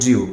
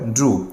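First: The vowel glides like 'ee-oo'. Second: The vowel is a plain 'oo'. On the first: The speaker calls it wrong. "অনেকে বলি ড্রিউ" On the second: The speaker calls it right. "কিন্তু উচ্চারণটা হবে ড্রু"

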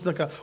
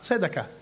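First: The first two consonants are run together. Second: A short vowel follows the first consonant. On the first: The speaker calls it wrong. "לא אומרים צדקה" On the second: The speaker calls it right. "שווה בראש מילה זה שווה נא"

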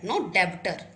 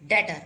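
First: The b sound is pronounced. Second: The b sound is silent. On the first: The speaker calls it wrong. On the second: The speaker calls it right. "B is silent here"

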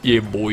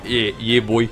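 First: It is said in the speaker's normal accent. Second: It is said in a put-on Australian accent.

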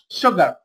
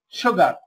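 The two takes are said the same way.

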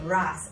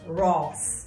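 First: The vowel is an open 'ah' sound. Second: The vowel is a rounded 'aw' sound. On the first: This is how younger speakers say it. "Whereas we will say ras, R-A-A" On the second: This is how older speakers say it. "the older generation, what I find in Jamaica, say it like this, ras. So R-A-W-S-E"

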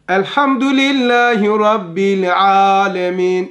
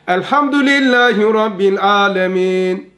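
First: The l sound in rabbil is clearly held. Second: The l sound in rabbil is barely heard. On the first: The speaker calls it right. "Göster" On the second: The speaker calls it wrong. "Olmadı dedi. Lamı göstermedim"

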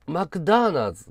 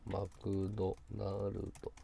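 First: The name is said with native English sounds. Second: The name is said with Japanese katakana sounds. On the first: The speaker calls it right. "正しいネイティブの発音" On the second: The speaker calls it wrong. "違うんだよ。"

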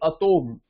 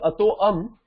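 First: It is said as one joined word. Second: It is said as two separate words. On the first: The speaker calls it right. "if you don't break it, it will be Atom" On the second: The speaker calls it wrong. "generally people say Ato Am, but then Ato Am makes no sense"

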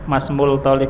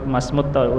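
First: The article's l sound is clearly pronounced. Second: The l merges into a doubled t sound. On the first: The speaker calls it wrong. "Bukan mus" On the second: The speaker calls it right. "huruf samsiah. Alnya tidak kelihatan"

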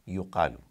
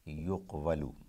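First: The q runs straight into a, no w. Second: A w sound comes between q and a. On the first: The speaker calls it right. "So yuqvalu would become yuqalu" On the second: The speaker calls it wrong. "Somehow that too is an awkward pronunciation"

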